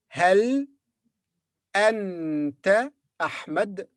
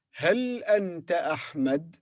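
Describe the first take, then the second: First: "Hal", pause, slow "anta", then "Ahmed" apart; word by word. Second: "Hal anta Ahmed" slow but connected, rising; joined question. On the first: Teacher reads out the question, "Hal anta Ahmed" word by word. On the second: Teacher repeats the question, "Hal anta Ahmed" as one phrase. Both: Shown as a demonstration. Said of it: "Can you read this question?".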